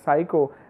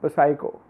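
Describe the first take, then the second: First: The p at the start is silent. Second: The p at the start is sounded. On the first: The speaker calls it right. "pronounced as psycho" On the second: The speaker calls it wrong. "and not as psycho"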